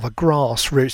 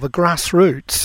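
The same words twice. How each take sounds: First: It is said in a posh, upper-class accent. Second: It is said in a plain, everyday accent.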